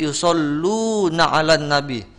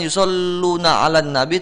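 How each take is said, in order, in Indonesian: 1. Vokalnya dibaca panjang. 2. Vokalnya dibaca pendek. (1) "tapi yusalluna 'alan nabi" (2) "bukan yusalluna 'alan nabi"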